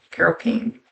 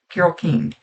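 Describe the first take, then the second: First: Unsure question. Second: Said in the usual way. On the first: Shown as a demonstration. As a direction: check the name, unsure of it. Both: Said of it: "Is that the right name?".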